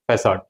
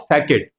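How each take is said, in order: First: The c is pronounced as an s sound. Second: The c is pronounced as a k sound. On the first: The speaker calls it right. "The pronunciation of this word is facade" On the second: The speaker calls it wrong. "according to the pronunciation rule, it should be pronounced as"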